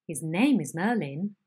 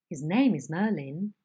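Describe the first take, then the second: The two takes are said the same way.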